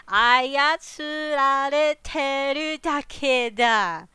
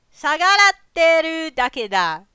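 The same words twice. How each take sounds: First: 操られてる drawn out slowly as a-ya-tsu-ra-re-te-ru; slow, careful reading of 操られてる; careful sounding-out. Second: 操られてる misread as 下がらってる; fast, loud misreading, 下がらってる; misread word. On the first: Shown as a demonstration. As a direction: stretch 操られてる syllable by syllable. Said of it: "it's hard to say when you don't know the word". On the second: Acted. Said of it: "I read that wrong".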